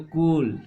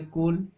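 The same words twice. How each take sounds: First: कूल with the ू held longer. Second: Said in the usual way. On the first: Shown as a demonstration. Teacher to pupils, contrasting with the short u: long कूल. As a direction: lengthen the ू in कूल. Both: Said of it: "तो ये हो गया बोलने पर".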